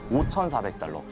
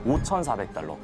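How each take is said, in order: First: The highest digit, 오천, is strongly emphasized. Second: The same.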